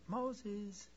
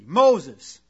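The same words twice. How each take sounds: First: It is said softly, without authority. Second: It is said firmly, with authority.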